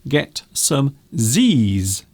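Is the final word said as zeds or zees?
zees. The letter is pronounced zee. This is the American usage. "if you are American, you will say get some Z's"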